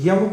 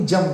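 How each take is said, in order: First: The word begins with a y sound. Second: The word begins with a j sound. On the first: "य की जगह ज ही कहा गया है" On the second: "यम को ही जम कहा है"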